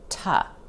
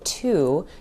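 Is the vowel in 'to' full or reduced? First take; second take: reduced; full. First: The word has a short reduced vowel. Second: The word has a full 'oo' vowel. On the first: "you'll hear us say ta" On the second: "you won't hear us say to"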